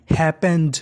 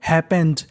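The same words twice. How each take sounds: The two takes are said the same way.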